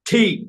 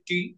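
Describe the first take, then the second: First: The T is said with a puff of air. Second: The T is said without a puff of air. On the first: The speaker calls it right. "ঠি মানে ঠ" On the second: The speaker calls it wrong. "এতদিন আমরা বলেছি টি"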